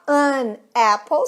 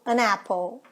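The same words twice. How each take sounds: First: The two words are said separately. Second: The n links into the next vowel. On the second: "Outra junção de N com som de vogal"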